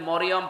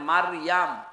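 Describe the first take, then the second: First: The name is said with 'o' vowels: Moriyom. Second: The name is said with 'a' vowels: Mariyam. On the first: This is the form used by Christians, not the Quran. The speaker calls it wrong. "কোরআনে কোন জায়গায় আপনি মরিয়ম পাবেন না" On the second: This is the form found in the Quran. The speaker calls it right. "পাবেন মারিয়াম"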